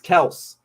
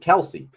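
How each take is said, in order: First: The name is said with one syllable. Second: The name is said with two syllables. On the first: The speaker calls it right. "it's Kels" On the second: The speaker calls it wrong. "their last name isn't Kelsey"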